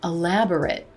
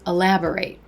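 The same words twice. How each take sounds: First: The final syllable is reduced, like 'it'. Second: The final syllable is full, like 'ate'. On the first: It describes a quality of something. "I could describe decorations in a room as being elaborate" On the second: It names an action. "the action of telling more in detail is to elaborate"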